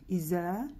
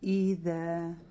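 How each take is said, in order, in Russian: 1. Средний согласный — звук 'z'. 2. Средний согласный — мягкий звук 'th'. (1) "ошибка у сестер здесь, что они читают ее как «з»" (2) "четко «и»"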